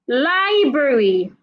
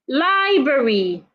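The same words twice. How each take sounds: Both takes have the same delivery.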